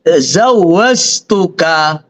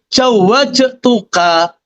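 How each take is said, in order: First: It starts with z and has z inside. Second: It starts with j and has j inside. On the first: "jim diganti za" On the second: "atau diganti jim jawajtuka"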